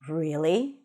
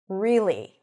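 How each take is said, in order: First: It is said on a lower pitch. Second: The pitch drops down on the word. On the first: The speaker is a bit scared or anxious. "If I use a lower pitch" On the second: The speaker is dissatisfied. "When I drop the pitch down"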